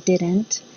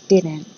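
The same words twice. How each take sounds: First: The T sound is clearly pronounced. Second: The T sound is dropped. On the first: The speaker calls it wrong. "I don't say didn't" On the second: The speaker calls it right. "I say didn't. You'll notice there's no T sound"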